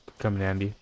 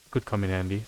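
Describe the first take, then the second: No difference in how they are said.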